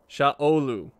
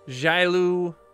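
First: The name begins with an 'sh' sound. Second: The name begins with a 'j' sound. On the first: The speaker calls it right. "If that's correct, I will never do that right" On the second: The speaker calls it wrong. "I would say it wrong, and I have again"

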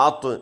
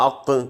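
Both takes have the same delivery.

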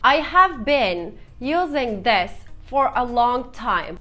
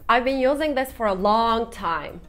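First: Every word is said in full, including have. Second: I have is contracted and only key words stressed. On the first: The speaker calls it wrong. "Ne kadar uzun bir cümle ve ben söyleyene kadar karşımdaki yorulur arkadaşlar" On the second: The speaker calls it right. "I have been using this for a long time demiyorum"

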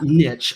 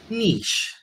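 First: The word is said with an English-sounding pronunciation. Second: The word is said with a French-sounding pronunciation. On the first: The speaker calls it wrong. "It's not niche, I've been told" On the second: The speaker calls it right. "It's niche, which, I don't know, Kurt, does that sound French to you?"

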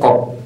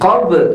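First: The final b is stopped without a bounce. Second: The final b is released with a bounce. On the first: The speaker calls it wrong. "jangan sampai qab" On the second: The speaker calls it right. "maka itu harus dipantulkan. Jadi qab"

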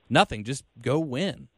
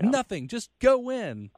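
First: The phrase is said in a casual, offhand tone. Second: The phrase is said in a fired-up, rousing tone. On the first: It is a plain, matter-of-fact answer, not a call to arms. The speaker calls it right. "the way Jay meant it, like the intonation was supposed to be like" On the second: It is a rallying cry to the team. The speaker calls it wrong. "not like"

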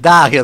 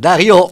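First: The name is said with an Italian pronunciation. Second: The name is said with a French pronunciation. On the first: "Darío los tanos" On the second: "la pronuncian Darío los franceses"

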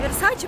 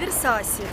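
First: The middle consonant is a 'ch' sound. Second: The middle consonant is an 's' sound. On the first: The speaker calls it wrong. "Не Версачи" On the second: The speaker calls it right. "правильно, а Версаси"

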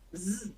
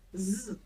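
The two takes are said the same way.

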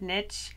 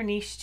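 First: The word rhymes with itch. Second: The word sounds like neesh. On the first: "I've always said niche, because the riches are in the niches" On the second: "but I hear niche too"

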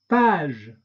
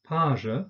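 First: It ends in a released voiced consonant. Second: It ends in a weak schwa vowel. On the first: This is the French pronunciation. "der französischen Aussprache mit Détente" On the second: This is the German pronunciation. "die deutsche Aussprache von stimmhaften Frikativen plus ö, Schwallaut"

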